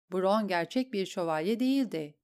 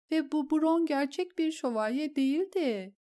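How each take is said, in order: First: Said in the usual way. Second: Higher, tearful voice on "Ve bu Bron gerçek bir şövalye değildi"; a shaken noblewoman pleading her husband's reasoning; distraught lady. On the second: Acted. Lady repeats her husband's words to the queen, tearful and high.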